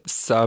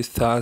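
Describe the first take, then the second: First: سا with a hissing, whistled 's'; whistled seen sound. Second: Tongue lightly between the teeth for سا; correct tha. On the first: Teacher showing the mistake, whistled 's' in سا. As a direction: let سا turn into a sharp 's'. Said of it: "یہ سین کی شکل اختیار". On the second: Teacher contrasting the right letter, lisped سا. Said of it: "سیٹی پیدا کر دی تو یہ سا سے سا بن". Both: Shown as a demonstration.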